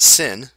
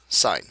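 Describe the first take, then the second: First: The vowel is a short 'i' sound. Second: The vowel is a long 'eye' sound. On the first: The speaker calls it wrong. "not sin" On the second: The speaker calls it right. "It's pronounced like the word S I G N"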